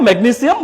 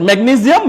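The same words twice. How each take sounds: First: "ম্যাগনেসিয়াম" as megni-SIAM; a sharp s in "ম্যাগনেসিয়াম"; S pronunciation. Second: "ম্যাগনেসিয়াম" as megni-ZIAM; a buzzing z in "ম্যাগনেসিয়াম"; Z pronunciation. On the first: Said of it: "both are correct". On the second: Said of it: "দুইটাই correct". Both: Shown as a demonstration.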